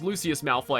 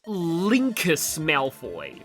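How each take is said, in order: First: The first name is said without a K sound. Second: The first name is said with a K sound. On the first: The speaker calls it right. "pronounced correctly as" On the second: The speaker calls it wrong. "I thought there was a K in there"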